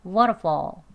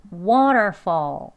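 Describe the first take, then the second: First: "Waterfall" short, middle weakened, L barely there; conversational pronunciation. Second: "Waterfall" slow and louder, long "water", full r; careful learner pronunciation. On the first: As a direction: reduce "Waterfall" to "wa-ruh-faw". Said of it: "이번엔 대화 발음입니다". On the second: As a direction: stretch every syllable of "Waterfall". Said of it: "배우는 발음으로". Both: Shown as a demonstration.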